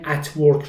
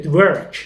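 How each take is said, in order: First: Said in the usual way. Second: At work glued together as "ed-verk"; linked as one word. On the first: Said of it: "میگه at work". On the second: Shown as a demonstration. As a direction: run the two words into one. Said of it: "انگار یه کلمه است".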